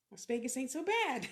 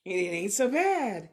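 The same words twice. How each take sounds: First: Said in the usual way. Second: Much louder, "bad" hit hard; loud emphatic. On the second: Real, not acted. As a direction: belt it out as a happy declaration. Repeats phrase, second time louder.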